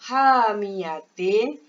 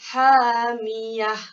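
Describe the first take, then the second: First: The word ends with a t sound and vowel. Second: The word ends with an h sound. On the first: The reader continues without stopping. "tukar kepada" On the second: The reader stops at this word. "ini bacaan yang betul"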